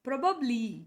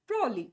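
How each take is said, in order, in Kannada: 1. ಮೂರೂ ಉಚ್ಚಾರಾಂಶಗಳನ್ನು ಪೂರ್ತಿಯಾಗಿ ಹೇಳಲಾಗಿದೆ. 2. ಮಧ್ಯದ ಉಚ್ಚಾರಾಂಶಗಳನ್ನು ಬಿಡಲಾಗಿದೆ, "prolly" ಎಂದು ಕೇಳಿಸುತ್ತದೆ. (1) "ಈ ಸ್ಪೆಲ್ಲಿಂಗನ್ನು ಹಿಂಗೆ ಹೇಳಬೇಕು" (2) "ಪ್ರೋಲಿ ಪ್ರೋಲಿ ಅದನ್ನು ಸ್ಟೈಲಾಗಿ ಹೇಳಕ್ಕೆ ಹೋಗ್ತಾರೆ"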